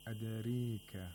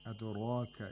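First: The vowel after r is tilted toward e. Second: The vowel after r is an open a.

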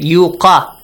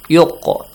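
First: The q is followed by a full vowel. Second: The q ends in a short bouncing echo. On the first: The speaker calls it wrong. "Do not read it yuqa" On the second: The speaker calls it right. "you must pronounce a bouncing sound or echoing sound"

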